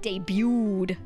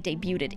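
First: No T sound is pronounced in the word. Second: A T sound is pronounced in the word. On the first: The speaker calls it right. "You don't pronounce the T" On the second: The speaker calls it wrong. "They say debuted"

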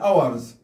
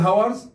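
First: The word begins with a vowel sound. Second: The word begins with an h sound. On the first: The speaker calls it right. "نكتب الاتش لكن لا نلفظها" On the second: The speaker calls it wrong. "لا نقول hours"

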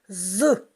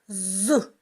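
The two takes are said the same way.

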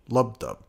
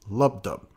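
No difference in how they are said.

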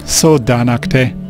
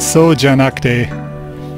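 First: The consonant after 'so' is a 'd' sound. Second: The consonant after 'so' is a 'j' sound. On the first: The speaker calls it wrong. "comes out kind of like" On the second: The speaker calls it right. "This latter part"

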